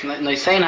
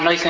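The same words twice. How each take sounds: First: The stress is on the last syllable. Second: The stress is on the first syllable. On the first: The speaker calls it right. "Usually the stress is on the last syllable" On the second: The speaker calls it wrong. "it's not Noisein HaTorah"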